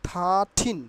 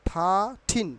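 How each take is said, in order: Both takes have the same delivery.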